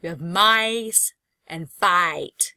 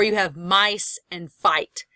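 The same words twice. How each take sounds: First: "mice and fight" very slowly, dwelling on the I sound; slow right down and lean on the I in "mice" and "fight"; slow vowel demo. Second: Slow vowel demo. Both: Shown as a demonstration. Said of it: "You have the I sound".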